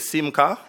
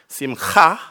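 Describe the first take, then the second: First: The middle consonant is plain, without throat friction. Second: The middle consonant is rasped in the throat. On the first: "if you don't want to do all of that, you can simply say" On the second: "the proper way is simcha. You make that thing at the back of your throat"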